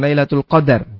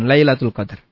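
First: The d is followed by a short a vowel. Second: The d is said with no vowel after it. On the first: The night is when fate is decreed. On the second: The night is named for its great standing.

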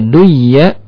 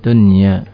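First: The n merges into a doubled y sound. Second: The n sound is pronounced clearly before y. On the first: The speaker calls it wrong. "seakan-akan di sana ada huruf ya bertasydid" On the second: The speaker calls it right. "dibaca dengan izhar yang disebut izhar mutlak"

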